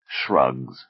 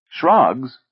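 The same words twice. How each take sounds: First: Flat falling answer, Shrugs. said low and final; Shrugs. with a closed, falling tune; falling statement. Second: Shrugs? lifted higher and louder as a query; Shrugs? echoed back in disbelief; rising question. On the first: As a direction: state Shrugs. as a plain fact, dropping low. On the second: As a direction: ask Shrugs? with a rising tune. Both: Acted. Answer versus echoed question.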